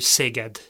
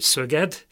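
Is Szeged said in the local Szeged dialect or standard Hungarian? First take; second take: standard; local dialect. First: It is said in standard Hungarian. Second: It is said in the local Szeged dialect. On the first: This is how people elsewhere say it. "mi pedig mondjuk Dunántúlon, vagy bárhol máshol" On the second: This is how people from the city say it. "az ottaniak úgy mondják"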